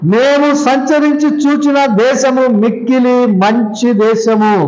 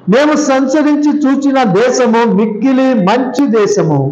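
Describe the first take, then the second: Both takes have the same delivery.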